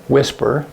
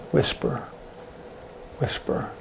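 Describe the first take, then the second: First: Said in the usual way. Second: Very soft, hushed demonstration; demonstrated whisper. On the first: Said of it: "let's do whisper". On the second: Shown as a demonstration. Teacher showing students the sign for whisper, whispering. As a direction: say it under your breath. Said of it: "We have whisper like this".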